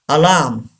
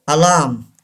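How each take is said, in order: Both takes have the same delivery.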